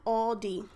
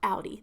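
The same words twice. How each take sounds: First: The first syllable sounds like 'all'. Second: The first syllable does not sound like 'all'. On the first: This is how many viewers say the name. "I guess A L L D E E" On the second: This is how the speaker's family in Philly says the name. "That's what I call it"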